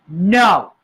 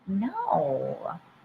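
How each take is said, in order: First: It is said angrily. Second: It is said sweetly and flirtatiously. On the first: "first say it with anger" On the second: "be coquettish, like sweet and flirty"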